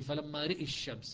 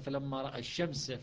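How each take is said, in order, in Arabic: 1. بعد الراء حركة مائلة نحو الكسرة. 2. بعد الراء فتحة مفتوحة.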